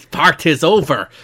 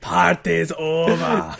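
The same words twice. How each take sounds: First: Put-on Scottish accent. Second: Slow, drawn-out mock Scottish accent; mock Scottish, stretched slowly. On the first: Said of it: "I'm veered more to Scottish here". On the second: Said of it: "veered more to Scottish".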